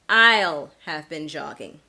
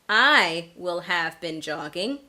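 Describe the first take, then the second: First: The pronoun and 'will' are merged into one syllable. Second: The pronoun and 'will' are said separately in full. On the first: "contracted form" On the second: "instead of saying"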